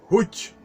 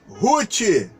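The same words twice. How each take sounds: First: It has a Hebrew pronunciation. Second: It has a Portuguese pronunciation. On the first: This is how the name is said in Hebrew. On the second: This is the name as used in Portuguese.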